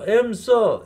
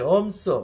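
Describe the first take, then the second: First: The first vowel sounds like 'em'. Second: The first vowel sounds like 'um'. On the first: This is how Americans say it. "미국 애들 또 엠써, 엠써 이렇게 읽는다고" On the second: This is how Koreans say it. "우리말이 엄써"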